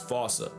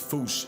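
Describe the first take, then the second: First: It is said with a British pronunciation. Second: It is one syllable ending in a sh sound. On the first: This is how the English say it. The speaker calls it wrong. "England pronounces it as fossa" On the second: This is closest to the original language. The speaker calls it right. "the closest to the O G Malagasy pronunciation"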